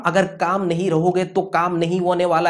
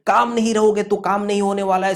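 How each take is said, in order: First: Said in the usual way. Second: काम hit hard on the repeat; stressed mantra repeat. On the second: Shown as a demonstration. Teacher repeating a mantra to exam students, काम stressed. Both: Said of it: "यही मंत्र आपके दिमाग में रखना चाहिए".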